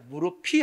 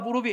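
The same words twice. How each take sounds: First: The middle consonant sounds like an aspirated p. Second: The middle consonant sounds like a soft b. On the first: The speaker calls it right. "무릎이 아파라고 해야 된다" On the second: The speaker calls it wrong. "이러면 틀려"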